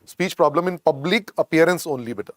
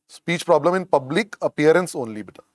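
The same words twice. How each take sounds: The two takes are said the same way.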